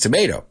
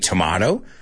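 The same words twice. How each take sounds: First: Tomato is said with the American pronunciation. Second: Tomato is said with a non-American pronunciation. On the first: This is the expected way in the United States. The speaker calls it right. "This is the United States, man. It's tomato" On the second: This way would be laughed at in the United States. The speaker calls it wrong. "If you're in the United States and you say tomato, they're going to laugh at you"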